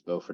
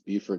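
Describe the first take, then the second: First: It is pronounced the North Carolina way. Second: It is pronounced the South Carolina way. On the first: This is the town in North Carolina. "it's Beaufort in North Carolina" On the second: This is the town in South Carolina. "it's Beaufort in South Carolina"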